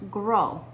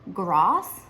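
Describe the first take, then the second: First: The final S is silent. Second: The final S is sounded. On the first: The speaker calls it right. "in French it is pronounced" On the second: The speaker calls it wrong. "it looks like his last name is pronounced"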